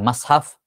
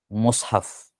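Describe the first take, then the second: First: The first vowel is an open a. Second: The first vowel is a rounded u.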